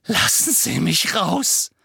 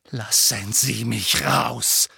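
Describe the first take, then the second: First: Demanding release. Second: Insistent demand. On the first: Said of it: "sagte er". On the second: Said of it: "sagte Harry abermals". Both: Acted.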